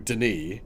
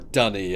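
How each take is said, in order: First: The name is said like 'Denis'. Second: The name is said like the word 'dunny'. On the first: This is the speaker's own way of saying it. "I pronounce it Denis" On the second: This is how someone else says it. "Dunny as he pronounces it"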